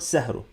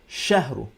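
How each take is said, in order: First: The word begins with an s sound. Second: The word begins with a sh sound. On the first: The speaker calls it wrong. "not sahru" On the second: The speaker calls it right. "Shh, with the teeth"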